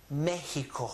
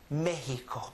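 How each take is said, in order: No difference in how they are said.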